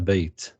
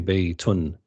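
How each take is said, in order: First: The word ends without its final vowel ending. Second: The word ends with its full final vowel ending. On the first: "they don't pronounce the endings of the words" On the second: "They wouldn't say بيت"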